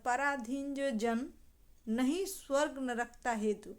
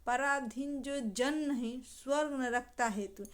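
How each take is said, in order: First: The pause comes after the word 'jan'. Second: The pause comes after the word 'nahin'. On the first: A person who depends on others gets no heaven. "अगर पराधीन जो जन" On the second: A person who is not dependent on others gains heaven. "पराधीन जो जन नहीं"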